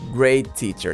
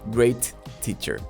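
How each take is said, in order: First: The T sound is said only once. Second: The T sound is said twice. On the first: The speaker calls it right. "I pronounce letter T only once" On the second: The speaker calls it wrong.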